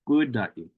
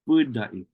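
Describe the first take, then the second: The two takes are said the same way.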